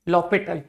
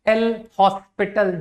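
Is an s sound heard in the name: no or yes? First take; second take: no; yes. First: The s sound is silent in the name. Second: The s sound is pronounced in the name.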